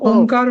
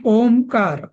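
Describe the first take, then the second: First: The vowel before kar is nasalized, no full m. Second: A full m sound is said before kar. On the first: "बरेच जण ओंकार म्हणतात" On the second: "ओम पूर्ण म्हणून मग त्याला कार म्हणतात"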